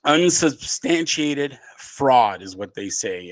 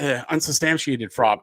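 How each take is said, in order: First: Unsubstantiated said slowly, every syllable spelled out; slow down and nail unsubstantiated; unsubstantiated carefully articulated, slow; careful correction. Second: Unsubstantiated tripped over, mumbled and slurred; unsubstantiated fumbled after false starts; tongue-tied stumble. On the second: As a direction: trip on the word unsubstantiated. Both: Real, not acted. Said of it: "I can't even talk".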